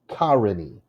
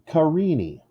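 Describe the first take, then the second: First: The stress is on the first syllable. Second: The stress is on the second syllable. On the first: The speaker calls it wrong. "If the first one is stressed, then my name is Karini" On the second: The speaker calls it right. "The second syllable is stressed"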